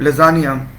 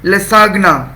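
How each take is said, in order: First: The middle has a z sound, no hard g. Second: The middle has an s and a hard g. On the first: This is how the word is normally pronounced. "मैं class के अंदर बोलता हूँ लजानिया" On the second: This follows the spelling to help remember it. "pronounce it as or read it as लसागना"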